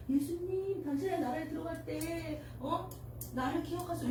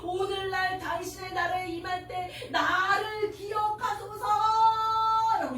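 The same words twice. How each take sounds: First: 당신의 said softly, a quiet timid plea; the thief asking Jesus in a tiny voice; small quiet voice. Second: The dying thief calling out to Jesus with all he has; with all his strength. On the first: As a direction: murmur it like a shy request. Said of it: "이렇게 조그맣게 얘기했겠어요?". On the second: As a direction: cry it out with every last bit of strength. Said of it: "죽을 힘을 다해". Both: Shown as a demonstration.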